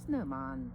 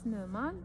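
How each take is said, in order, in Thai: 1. เสียงของคำนี้ต่ำ 2. เสียงของคำนี้สูง (1) "ต่ำๆอย่างเงี้ย" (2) "เราจะขึ้นเสียงสูงไหม"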